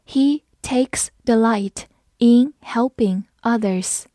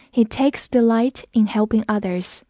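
First: Slow model reading, word by word; slow read-along. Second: Said in the usual way. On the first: Shown as a demonstration. Teacher modelling a sentence for learners, slow and separated. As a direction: leave a gap after each word, slowly. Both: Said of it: "好，我们慢读一遍".

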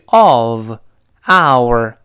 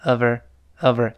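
First: OF and OUR apart, slow and loud; drawn-out, stressed "of", then "our"; separate full forms. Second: "of our" run together as "ə-ver"; light "over" for "of our"; linked weak forms. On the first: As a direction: give "of" and "our" their full vowels, one word at a time. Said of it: "注意of，our". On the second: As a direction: link the v of "of" into a reduced "our". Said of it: "连读". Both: Shown as a demonstration.

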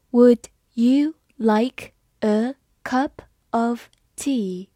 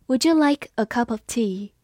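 First: Slow, word by word; slow reading. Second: Said in the usual way. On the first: Shown as a demonstration. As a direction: read it slowly for learners. (慢慢地读) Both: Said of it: "好，我们慢慢来读".

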